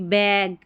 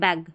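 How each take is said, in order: First: The vowel is drawn out long. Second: The vowel is clipped short. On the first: The speaker calls it wrong. "ना कि बैग। अगर हमने ए को थोड़ा खींच के प्रोनाउंस कर दिया तो उच्चारण गलत हो गया" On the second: The speaker calls it right. "हम बोलेंगे बैग"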